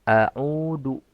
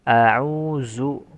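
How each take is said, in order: First: The middle consonant is a plain d sound. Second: The middle consonant is a buzzing z sound. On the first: "jangan mengganti huruf zal menjadi huruf dal" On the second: "Atau menjadi zai"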